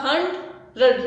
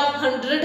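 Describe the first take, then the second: First: हंड्रेड broken in two, hund-red, with a gap; split into syllables. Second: Said in the usual way. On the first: Shown as a demonstration. Teacher showing students the parts of हंड्रेड, syllable by syllable. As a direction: say हंड्रेड as two separate pieces. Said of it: "तोड़ के उसके हिस्से करेंगे". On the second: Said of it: "जब हम तोड़ के".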